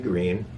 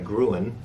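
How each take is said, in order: First: The vowel is an 'ee' sound. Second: The vowel is an 'oo' sound. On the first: The speaker calls it right. "but it's actually green" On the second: The speaker calls it wrong. "that's the way most people pronounce it"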